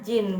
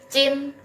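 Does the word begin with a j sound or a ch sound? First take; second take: j; ch. First: The word begins with a j sound. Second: The word begins with a ch sound. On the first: The speaker calls it wrong. "bukan dibacanya Jin" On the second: The speaker calls it right. "J-nya jadi C ya"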